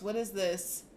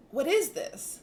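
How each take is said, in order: First: Said in the usual way. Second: Higher and louder, thrilled; an excited gasp of discovery. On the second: Retold or imitated. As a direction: ask it with rising wonder. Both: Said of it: "and you like".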